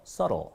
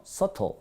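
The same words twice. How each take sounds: First: Subtle lower, t rolled to a soft r, sorro; flapped t. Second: Subtle with a crisp hard t, higher. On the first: Teacher shows subtle with a flapped t. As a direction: roll the t in subtle. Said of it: "굴려주면은 플랍 현상". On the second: Teacher shows subtle with a crisp hard t. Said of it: "딱딱하게 발음하면요". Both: Shown as a demonstration.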